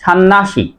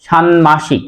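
First: ষান্মাসিক as shan-nashik, n doubled; expected mispronunciation. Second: ষান্মাসিক as shan-mashik, m clearly kept; careful shanmashik for ষান্মাসিক; correct pronunciation. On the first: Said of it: "হওয়ার কথা ছিল". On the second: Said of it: "সে কারণে উচ্চারণ হবে". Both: Shown as a demonstration.

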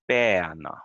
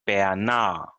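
First: "bäna" hit hard on the opening syllable, then falling; stress on first syllable. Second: "bäna" wrongly stressed on its last syllable; stress on second syllable. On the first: Teacher corrects the mistake, "bäna" with first-syllable stress. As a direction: punch the start of "bäna", let the end drop. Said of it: "The stress in the start". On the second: Teacher shows learners the mistake, "bäna" with final-syllable stress. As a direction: push the stress onto the end of "bäna". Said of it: "it's not bäna". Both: Shown as a demonstration.

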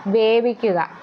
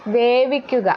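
No difference in how they are said.

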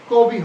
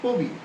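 First: "কবি" with an open ɔ, kɔbi; "কবি" shown wrong as kɔ-bi; wrong open vowel. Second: "কবি" with a closed o, kobi; "কবি" as ko-bi with rounded o; correct closed vowel. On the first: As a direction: say "কবি" with the mouth wide on kɔ. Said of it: "কবি হবে না". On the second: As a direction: say "কবি" as ko-bi, lips slightly pressed. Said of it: "হবে". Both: Shown as a demonstration.

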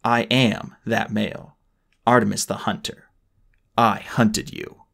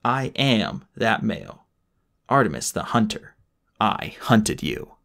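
First: Slow and deliberate. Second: Melodramatic. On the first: Artemis's slow triumphant reveal. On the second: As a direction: drag each word out dramatically. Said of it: "melodramatic to the end". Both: Acted.

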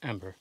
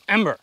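First: Said in the usual way. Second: High, loud urgent yell; shouting a name. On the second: Real, not acted. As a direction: yell for the dog in alarm. Yells dog's name urgently.

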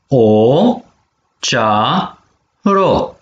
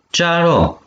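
First: Syllable by syllable. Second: Said in the usual way. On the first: Shown as a demonstration. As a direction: model cea - ro slowly for repeating. (pe silabe: cea, ro) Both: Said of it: "Pene vitumen palalman de acana".

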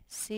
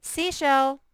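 First: Soft first try at the word Seashell; quiet try. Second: Seashell called out high and loud; loud announcement. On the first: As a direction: say Seashell softly to yourself. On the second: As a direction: proclaim Seashell to the class. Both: Shown as a demonstration. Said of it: "It's a compound word".

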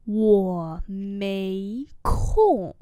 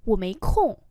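First: Very slow, held tones; slow model reading. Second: Said in the usual way. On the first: Shown as a demonstration. Teacher repeating a refusal for learners, very slowly. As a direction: say each syllable long.

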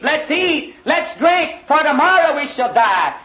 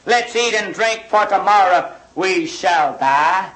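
First: Higher, lightly hammed-up party voice; mocking carefree revelers. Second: Said in the usual way. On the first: Preacher mocking people who won't weep, mild carefree mimicry. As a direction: mimic the careless crowd living it up. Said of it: "everybody's saying". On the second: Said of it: "what he said in verse thirteen".

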